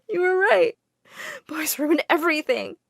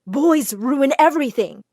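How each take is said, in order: First: High-pitched, crying voice; tearful. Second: Louder scolding outburst; angry yelling. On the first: Girl confiding in the widow after heartbreak, in tears. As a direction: admit it through sobs. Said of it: "I burst into tears and told her everything". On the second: Widow barging in on the girl and boy, yelling. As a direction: storm in and tell her off. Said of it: "She started yelling at me". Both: A narrator's reading.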